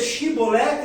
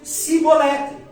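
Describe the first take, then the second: First: The word begins with an sh sound. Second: The word begins with an s sound. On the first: The speaker belongs to the tribe of Gilead. The speaker calls it right. "com C H" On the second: The speaker belongs to the tribe of Ephraim. The speaker calls it wrong. "Pronunciava o som de C H como o som de F, de S"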